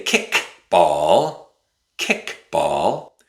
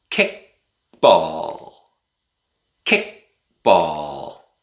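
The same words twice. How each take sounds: First: "kick ball" with the k of "kick" fully released before "ball"; the wrong example, "kick" with its k fully released. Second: "kick ball" with the k of "kick" swallowed by a glottal stop; the right way, "kick" ending in a glottal stop. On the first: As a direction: sound the final k of "kick" clearly. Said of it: "we don't say". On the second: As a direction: stop the air in the throat before "ball". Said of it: "We use a glottal stop". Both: Shown as a demonstration.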